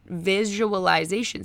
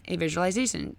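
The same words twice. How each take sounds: First: Visualization stretched slowly, ending on a rise; slow drawn-out repeat. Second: Said in the usual way. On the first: Retold or imitated. Coach Drew calming rambling Adrian, slow drawn-out repeat. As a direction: draw out visualization soothingly, lifting at the end. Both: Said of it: "And Drew was just like".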